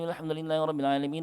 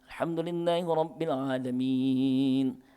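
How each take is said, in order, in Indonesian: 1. Bacaan ini dilantunkan cepat, mengalir tanpa henti napas. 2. Bacaan ini dilantunkan dengan tempo sedang, standar. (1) "Model yang membaca dalam satu napas sampai tujuh ayat" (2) "Itu standar bacaan. Itu model tadwir"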